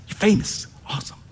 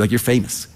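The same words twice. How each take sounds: First: Famous lifted up high and hushed; You're famous said higher and softer in awe; higher, soft marvel. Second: Said in the usual way. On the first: Pretend. Repeated famous.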